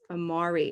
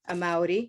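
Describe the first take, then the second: First: The R is pronounced the English way. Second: The R is pronounced the Spanish way. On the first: "with my English R" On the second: "I'm saying the R of your name in a Spanish speaking way"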